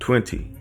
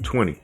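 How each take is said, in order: First: The final 'ty' syllable is fully pronounced. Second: The final 'ty' syllable is dropped. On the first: The speaker calls it right. "So that's why I said twenty again" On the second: The speaker calls it wrong. "I didn't pronounce the T Y"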